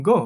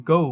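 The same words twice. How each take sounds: First: "go" with a plain short o; common local pronunciation. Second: "go" gliding from o into oo; correct pronunciation. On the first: Teacher showing how we say it, "go" with no glide. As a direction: cut "go" off on a single o. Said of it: "এটাকে আমরা বলি". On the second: Teacher modelling the correct word, "go" with gliding o-u. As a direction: say "go" as "goh-oo". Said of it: "এটা সঠিক উচ্চারণ হবে". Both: Shown as a demonstration.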